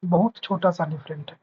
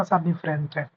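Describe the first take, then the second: First: बहुत छोटा सा with बहुत leaned on; stress on बहुत. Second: Said in the usual way. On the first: Shown as a demonstration. Teacher repeats to students that the difference is tiny, stressing बहुत. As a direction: lean on बहुत to insist it is small.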